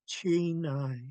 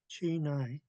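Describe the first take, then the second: First: It is said forcefully with much breath. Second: It is said softly with little breath. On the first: The speaker calls it right. "You could feel a lot more air leaving your mouth" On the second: The speaker calls it wrong. "if you underpronounce, it'll sound like"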